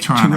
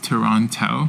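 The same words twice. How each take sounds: First: It is said the Canadian way. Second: It is said the Hong Kong way.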